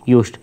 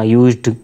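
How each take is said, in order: First: The word ends with a voiceless t sound. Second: The word ends with a voiced d sound. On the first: The speaker calls it right. "ट का sound देगा" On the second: The speaker calls it wrong. "ये यूज्ड नहीं होता"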